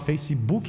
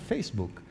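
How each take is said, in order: First: An extra i vowel is added after the final k. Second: The word ends cleanly on the final k sound. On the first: The speaker calls it wrong. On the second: The speaker calls it right.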